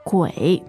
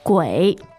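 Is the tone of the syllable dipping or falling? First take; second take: dipping; dipping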